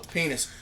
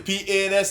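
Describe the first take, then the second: First: The letters are run together quickly. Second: The letters are said slowly and separately. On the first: "I'm just going to say it fast" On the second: "you say it slowly"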